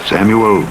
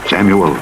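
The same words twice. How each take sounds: The two takes are said the same way.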